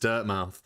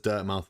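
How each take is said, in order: First: The ending sounds like the full word mouth. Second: The ending is reduced, as in Portsmouth. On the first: "I've seen all the Americans pronounce it as" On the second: "a British person pronounce it as"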